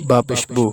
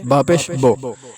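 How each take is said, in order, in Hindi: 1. आखिरी स्वर शुद्ध 'oo' है। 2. आखिरी स्वर 'oh' की ओर झुका हुआ है। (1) "ऐसे पढ़ना है।" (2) "इसको झुका कर पढ़ना कहते हैं। ... पेश को इंग्लिश का ओ पढ़ना"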